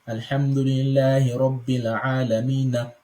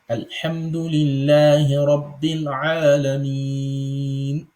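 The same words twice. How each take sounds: First: The final n carries a vowel into the next word. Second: The final n has no vowel and stops. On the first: The speaker calls it wrong. "you don't say" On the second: The speaker calls it right. "you give it sukun"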